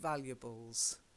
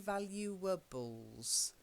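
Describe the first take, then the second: First: The middle syllable carries no stress. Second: The middle syllable carries stress. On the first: The speaker calls it right. "there's no stress on the uh in the middle" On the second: The speaker calls it wrong. "we don't say valuables"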